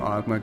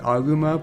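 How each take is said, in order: First: The name is said a shortened, anglicized way. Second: The name is said the Japanese way. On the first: "I always call him Agma because it sounds better" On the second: "his Japanese name is Aguma"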